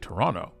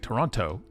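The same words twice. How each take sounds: First: The second T sound is dropped. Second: The second T sound is clearly pronounced. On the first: The speaker is from the city. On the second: The speaker is not from the city.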